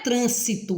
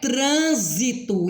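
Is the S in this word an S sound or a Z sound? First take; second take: S sound; Z sound. First: The S is a hissing S sound. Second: The S is a buzzing Z sound. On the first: The speaker calls it wrong. "O nome não é trânsito" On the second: The speaker calls it right. "ele passa a ter o som de Z"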